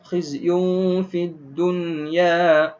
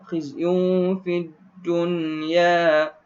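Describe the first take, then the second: The two takes are said the same way.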